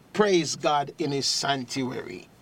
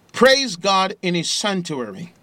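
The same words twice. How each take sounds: First: Said in the usual way. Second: Loud and high, "Praise" hit hard with a rising end; booming scripture reading. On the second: Real, not acted. Preacher calling the radio audience to praise, loud and high. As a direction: shout the praise to the rafters. Reading Psalm at full force.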